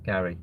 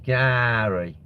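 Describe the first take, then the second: First: Said in the usual way. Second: "Gary" with a long stretched first vowel; drawn-out name. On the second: Acted. Streamer mocking a viewer called Gary, "Gary" drawn out long.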